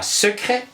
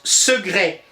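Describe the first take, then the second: First: The middle consonant sounds like a K. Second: The middle consonant sounds like a G. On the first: The speaker calls it wrong. "et non pas secret" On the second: The speaker calls it right. "Le C se prononce quelquefois comme un G, ainsi on prononce secret"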